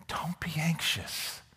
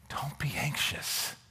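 First: It is said gently, like a caring father. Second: The same.

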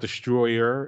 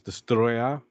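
First: The word is said with plain English sounds. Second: The word is said with Japanese-style sounds. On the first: The speaker calls it wrong. "it's not Destroyer" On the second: The speaker calls it right. "it's Destroyer"

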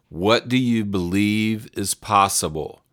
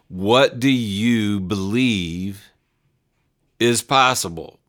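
First: It is said without a long pause. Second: It is said with a long, emotional pause.

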